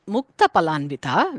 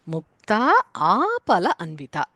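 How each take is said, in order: First: The words run together with short vowels. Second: The vowels between the words are drawn out. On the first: "Instead of saying" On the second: "certain parts is elongated in pronunciation to give different meanings"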